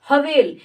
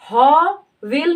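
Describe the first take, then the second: First: The first syllable 'ha' is clipped very short. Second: The first syllable 'ha' is drawn out fully. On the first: The speaker calls it right. "जो ह है उसका उच्चारण हम तुरंत झटके से कर रहे हैं" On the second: The speaker calls it wrong. "उच्चारण करते समय हवेल नहीं कह रहे हैं"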